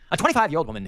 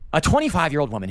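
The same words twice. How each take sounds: First: It is read in a put-on English accent. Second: It is read in the speaker's normal accent.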